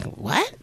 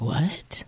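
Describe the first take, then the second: First: "What?" shot up high in mock shock; the shocked reaction he didn't have, higher. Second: Said in the usual way. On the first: Husband pretending to be stunned by her news, mock shock. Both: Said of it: "he wasn't like, "What?".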